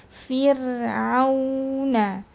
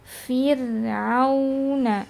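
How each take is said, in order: The two takes are said the same way.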